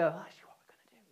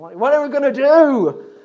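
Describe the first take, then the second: First: It is asked calmly, without alarm. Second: It is asked with alarm, shakily.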